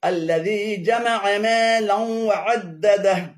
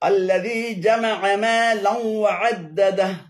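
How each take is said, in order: Both takes have the same delivery.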